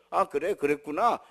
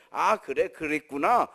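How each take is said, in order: First: Lower, matter-of-fact parental reply; brusque acknowledgement. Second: Stock empathetic reply with a lifted ending; mock understanding parent. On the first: Blunt parent answering a child in their own style, brusque. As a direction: acknowledge the child briefly and plainly. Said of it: "이렇게만 뚝 하는". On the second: Parent accepting a child's words by formula, imitated empathy. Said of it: "꼭 이렇게 할 필요 없어". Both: Shown as a demonstration.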